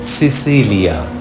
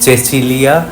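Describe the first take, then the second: First: The c sounds are said as s sounds. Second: The c sounds are said as ch sounds. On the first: It is read the way an English speaker would. The speaker calls it wrong. "ইংরেজি জানা যে কোনো মানুষ বলবেন সিসিলিয়া" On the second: It is read the Italian way. The speaker calls it right. "কিন্তু আমি বলেছিলাম নামটা চেচিলিয়া"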